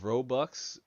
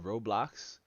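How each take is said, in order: First: The second syllable sounds like 'bucks', without L. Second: The second syllable sounds like 'blocks', with L. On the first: The speaker calls it wrong. "I say it wrong" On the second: The speaker calls it right. "it's Rob with the L O X blocks, like box but with an L"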